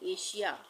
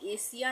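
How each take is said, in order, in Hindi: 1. बीच के व्यंजन का उच्चारण sh की तरह होता है। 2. बीच के व्यंजन का उच्चारण s की तरह होता है। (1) "यहाँ पे भी एस का उच्चारण श हो जाएगा" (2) "एशिया नहीं पढ़ते हैं"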